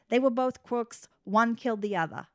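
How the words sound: It is said in an imitated Boston accent.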